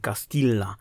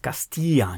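First: The double l is said as an l sound. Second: The double l is said as a y sound. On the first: The speaker calls it wrong. "nie Castilla" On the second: The speaker calls it right. "czytana jako I, a nie jako L. A więc Castilla"

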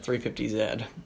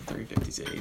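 First: The letter is said the British way, zed. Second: The letter is said the American way, zee.

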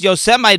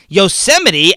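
First: The word is read as spelled, ending like 'mite'. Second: The word ends in a sounded final syllable, 'mitty'. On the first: The speaker calls it wrong. "It would have been pronounced Yosemite based on the spelling" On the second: The speaker calls it right. "the correct pronunciation, of course, is Yosemite"

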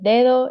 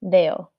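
First: The second d is pronounced. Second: The second d is dropped, Dominican style.

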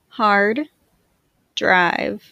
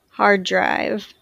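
First: The words are said with a break between them. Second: The words are joined smoothly with no break. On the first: "I will say the words with a space in between" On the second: "in a more fluid way to demonstrate linking"

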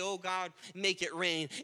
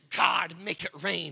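First: It is said casually, without much feeling. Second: It is said fervently, with intense feeling.

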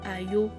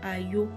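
Both takes have the same delivery.

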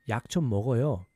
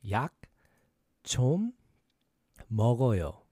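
First: It is said fast. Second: It is said slowly.

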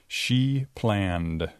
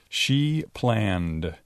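Both takes have the same delivery.

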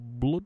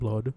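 First: The word is said with a Norwegian pronunciation. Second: The word is said with an American pronunciation. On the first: The speaker calls it right. "You have to say it like that" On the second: The speaker calls it wrong. "You can't say it like an American blood"

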